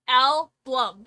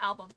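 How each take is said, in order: First: An extra L sound follows the B. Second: No extra L sound follows the B. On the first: "album with an L in it" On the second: "not album"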